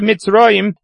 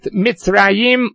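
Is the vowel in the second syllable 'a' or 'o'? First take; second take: o; a. First: The second syllable has an 'o' vowel. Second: The second syllable has an 'a' vowel. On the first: This is the form at a major pause in the verse. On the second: This is the ordinary form mid-verse.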